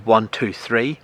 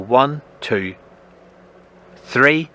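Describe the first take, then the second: First: The three numbers come in an even rhythm. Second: A longer pause comes between two and three. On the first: The speaker calls it wrong. "I don't do one, two, three" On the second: The speaker calls it right. "there's a little pause there"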